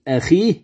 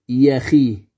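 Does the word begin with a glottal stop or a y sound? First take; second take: glottal stop; y sound. First: The word begins with a glottal stop. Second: The word begins with a y sound.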